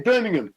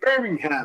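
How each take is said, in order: First: It is said with a British pronunciation. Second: It is said with an American pronunciation. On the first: "We say Birmingham" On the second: "but you say Birmingham"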